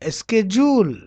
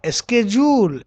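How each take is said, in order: No difference in how they are said.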